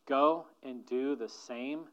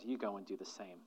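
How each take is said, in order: First: Slow, deliberate charge; slowed-down repeat of Jesus' words. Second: Low and much softer, a gentle charge; soft lower command, go and do the same; quiet command. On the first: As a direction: lean on each word, slowly. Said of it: "Listen again to Jesus' final words". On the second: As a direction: hand him the task quietly. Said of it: "And then Jesus said". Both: Retold or imitated.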